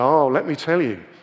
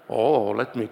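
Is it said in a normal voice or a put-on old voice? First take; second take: normal voice; put-on voice. First: It is said in a normal voice. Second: It is said in a put-on Yoda-like voice.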